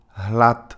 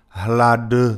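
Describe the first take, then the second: First: The final consonant is voiceless, like t. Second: The final consonant is voiced, like d. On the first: The speaker calls it right. "nhưng mà như hlad" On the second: The speaker calls it wrong. "không đọc như hlad"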